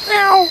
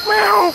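First: Lower cat meow. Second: Squeaky high meow imitation; high cat meow. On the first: Retold or imitated. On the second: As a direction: mew like a cat. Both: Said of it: "when I said hello".

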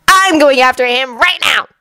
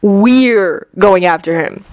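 First: Higher-pitched firm declaration; determined Anko. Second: WE'RE drawn out, the rest slow and even; correcting, stress on WE'RE. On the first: Anko announces her pursuit, high and determined. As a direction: declare it urgently. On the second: Kakashi corrects Anko, stretching We're. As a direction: lean slowly on We're. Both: A narrator's reading. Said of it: "Kakashi corrected".

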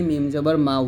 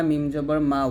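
The two takes are said the same way.

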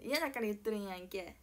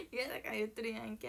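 First: 嫌だから言っとるんやんけ with a laughing fake Kansai やんけ; fake Kansai dialect. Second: Said in the usual way. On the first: Shown as a demonstration. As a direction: toss off 言っとるんやんけ in mock Kansai, half laughing. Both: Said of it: "エセ関西弁なまりが入ってきて".

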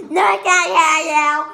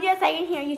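First: Loud, exaggerated mock denial; mocking imitation. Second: Said in the usual way. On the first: Accusing the other of switching answers, loud mocking imitation. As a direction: mimic the denial at a much louder volume. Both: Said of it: "you can't go from".

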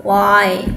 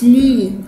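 First: "Lie" with an eye sound, lower pitch; low, open gliding vowel in "Lie"; correct diphthong. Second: "لي" said as "lee"; long ee in "لي" instead of eye; wrong vowel. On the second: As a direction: mistaken "lee" for lie. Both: Shown as a demonstration. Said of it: "مش لي".

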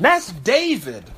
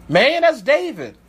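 First: Slow musing. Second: Emphatic exclaim. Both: Shown as a demonstration.

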